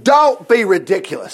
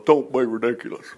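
First: Firm, brisk put-down; Saul's dismissal. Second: Low, soft put-on dismissal; Saul's muttered dismissal. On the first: Acted. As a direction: dismiss the idea outright. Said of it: "Saul replied". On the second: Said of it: "no wonder Saul goes".

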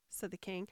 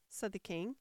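No difference in how they are said.

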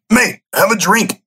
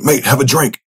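First: Much higher, put-on accent of a mate urging a drink; Mark's accent. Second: A fading hint of the friend's accent, higher; half-remembered accent of a mate, coaxing; faded Mark's accent. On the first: Friend Mark urging him to drink, in Mark's accent. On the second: Friend Mark urging him to drink again, in a fading accent. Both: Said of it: "my permanent Mark accent has gone".

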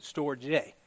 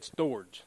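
First: "storge" said as two syllables, stor-jay; Pomona pronunciation. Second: "storge" clipped to one syllable, storj; Savannah pronunciation. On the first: Pastor showing how Pomona said it, two-syllable stor-jay. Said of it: "we pronounced it storge". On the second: Pastor showing how Savannah said it, one-syllable storj. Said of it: "they said storge". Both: Shown as a demonstration.

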